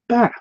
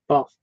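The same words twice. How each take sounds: First: It is said with an American vowel. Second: It is said with a British vowel. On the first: "The American um, accent says it" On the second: "it's the English way"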